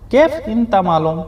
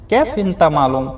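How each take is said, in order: Both takes have the same delivery.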